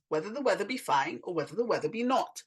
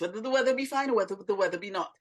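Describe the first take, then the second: First: It is said at a moderate pace. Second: It is said very fast.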